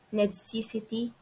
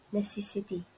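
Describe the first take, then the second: First: The word is said with an extra sound added. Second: The word is said without any extra sound. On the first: The speaker calls it wrong. "adding sound such as necessity" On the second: The speaker calls it right. "for necessity"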